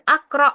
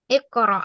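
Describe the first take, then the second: First: The word begins with an 'a' vowel. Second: The word begins with an 'i' vowel. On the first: The speaker calls it wrong. "bukan akra ya" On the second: The speaker calls it right.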